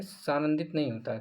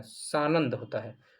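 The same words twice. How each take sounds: First: "सानंदित" ending in -dit; wrong form सानंदित. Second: "सानंद" slowly, ending on -nand; corrected सानंद. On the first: Teacher rejects the faulty word, सानंदित with -इत ending. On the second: Teacher gives the correct word, slow सानंद ending on द. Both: Shown as a demonstration.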